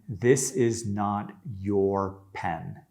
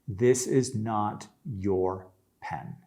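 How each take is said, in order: Both takes have the same delivery.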